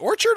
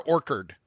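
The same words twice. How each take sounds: First: Said in the usual way. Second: Orchard said with a hard k, "OR-kerd"; alternative pronunciation. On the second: Shown as a demonstration. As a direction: swap the ch in orchard for a k sound. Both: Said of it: "is it orchard or orchard".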